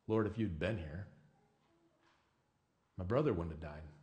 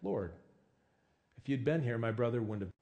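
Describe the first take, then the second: First: The voice sounds anguished and accusing. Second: The voice sounds calm and trusting. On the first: The speaker blames God for not intervening. "on my worst days, I would have said it like this" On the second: The speaker trusts that God knows best. "on my good days, I'm able to trust that God knows best ... I would have said it like Martha"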